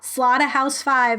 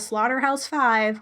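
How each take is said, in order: First: It is said in a British accent. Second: It is said in an American accent.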